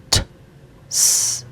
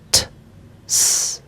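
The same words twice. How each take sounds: First: The t and s are said apart with a gap. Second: The same.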